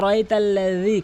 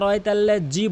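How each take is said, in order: First: The dh is made with tongue at teeth. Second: The dh is not made at the teeth. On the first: The speaker calls it right. "জাল যেমন বলতে হবে" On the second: The speaker calls it wrong. "কখনোই আরাইতাল্লাযী বলবেন না"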